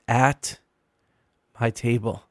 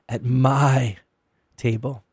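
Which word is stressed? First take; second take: at; my. First: The word "at" carries the stress. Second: The word "my" carries the stress. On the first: "emphasizing each of the three words" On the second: "emphasizing each of the three words"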